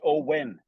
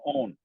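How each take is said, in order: First: The name is said with a w sound. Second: The name is said without a w sound. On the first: The speaker calls it right. "There's a W in there" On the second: The speaker calls it wrong. "I was saying my own name wrong"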